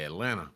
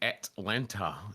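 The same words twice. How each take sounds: First: The first T sound is dropped. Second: The first T sound is clearly pronounced. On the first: The speaker calls it right. "You say Atlanta. Skip that first T" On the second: The speaker calls it wrong. "Don't say Atlanta"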